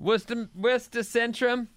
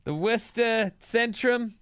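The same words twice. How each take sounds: First: Put-on Boston accent, dropped r's. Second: Put-on slow Boston accent drawl. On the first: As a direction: say it like a Boston local. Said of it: "is that your Boston accent?". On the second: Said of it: "It's excellent".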